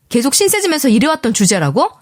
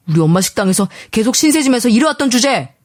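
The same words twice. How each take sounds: First: Higher-pitched indignant question, sharply rising end; outraged echo. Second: Husband's scornful jab with falling end; angry accusation. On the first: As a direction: repeat it back in angry disbelief. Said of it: "이리 윽박지르고 말았어요". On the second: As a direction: throw it out as a contemptuous accusation. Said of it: "이런 식으로 화부터 내더라고요". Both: A narrator's reading.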